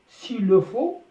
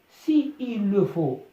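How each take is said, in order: First: The i of si is dropped before il. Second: The i of si is fully pronounced.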